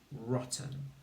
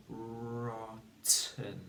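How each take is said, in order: First: Said in the usual way. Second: "rotten" drawn out slowly, long r, then a separate "ten"; stretched syllables. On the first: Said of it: "in the word rotten". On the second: Shown as a demonstration. Teacher asks pupils to find the t, syllables stretched. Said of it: "Think about where the t sound".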